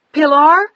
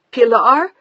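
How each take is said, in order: First: Much higher, louder shout. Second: Shouted name, higher and louder; shouting. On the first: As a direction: yell over a fading line. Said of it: "she shouted louder". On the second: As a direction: shout the name into the phone in shock. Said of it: "She was shouting into the phone now". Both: A narrator's reading.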